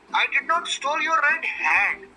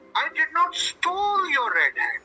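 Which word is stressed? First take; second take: hat; stole. First: The stress is on "hat". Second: The stress is on "stole".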